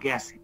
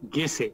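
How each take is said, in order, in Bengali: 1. প্রথম স্বরধ্বনিটি বেশি খোলা ধ্বনি। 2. প্রথম স্বরধ্বনিটি বানান অনুযায়ী উচ্চারিত হয়। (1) "কিন্তু উচ্চারণটা হচ্ছে গেছে" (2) "কি লিখছি আমি?"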